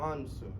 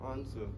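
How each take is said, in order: First: It is said with a British accent. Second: The same.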